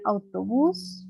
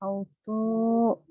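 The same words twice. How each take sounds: First: «autobús» de corrido, con «bús» largo y ascendente; acento final. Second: «Autobús» muy lento, con pausa antes de «bús»; separado por sílabas. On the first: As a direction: di «autobús» sin cortes, alargando la última sílaba. («autobús» con el acento marcado en «bús») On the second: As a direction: parte «Autobús» como dictándolo: «auto», pausa, «bús». («Autobús» estirado y cortado antes de la sílaba final) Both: Shown as a demonstration. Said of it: "su acento lo lleva en la última sílaba".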